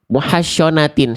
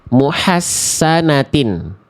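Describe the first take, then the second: First: It uses a hushing sh sound. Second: It uses a plain thin s sound. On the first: "syo jangan, makin jauh" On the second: "Shortnya dibaca jadi sin dulu aja"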